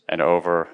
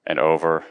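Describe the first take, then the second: No difference in how they are said.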